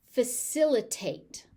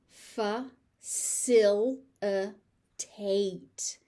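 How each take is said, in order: First: Said in the usual way. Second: "Facilitate" very slowly as fuh, sil, uh, tate; four separate beats on "Facilitate"; syllable by syllable. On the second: Shown as a demonstration. Teacher sounding out "Facilitate" for learners, slowly by syllable.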